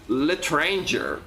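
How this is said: It is said with an American accent. "like T F tubers from the U S say it"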